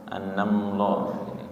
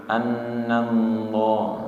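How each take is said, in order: First: The lips close together on the l sound. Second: The lips close together on the l sound.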